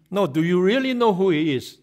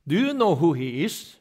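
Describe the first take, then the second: First: "know" hit louder and higher, falling; stress on know. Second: Light rising question, no special weight; plain question. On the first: Guru pressing the same question. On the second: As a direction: ask it simply, curious. Guru quizzing about a picture. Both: Retold or imitated.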